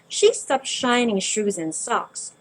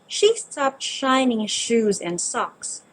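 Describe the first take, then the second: The two takes are said the same way.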